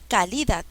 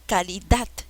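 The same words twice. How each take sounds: First: The stress is on the second syllable. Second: The stress is on the last syllable. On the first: The speaker calls it wrong. "No, tampoco" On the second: The speaker calls it right. "Es dat"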